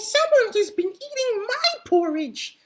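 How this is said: It is said in a high, squeaky voice. A small baby bear is speaking. "squeaked Baby Bear in his teeny tiny baby voice"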